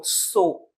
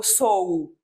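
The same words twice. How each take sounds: First: Sou as one o sound, no separate u; correct sou. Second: Sou U with the u said as a separate vowel; wrong sou U. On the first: Teacher modelling the right sou with a single o. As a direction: say sou like a plain o. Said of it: "eu digo sou". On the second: Teacher showing the wrong sou with a separate u. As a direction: split sou into o plus a separate u. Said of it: "eu não digo sou U". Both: Shown as a demonstration.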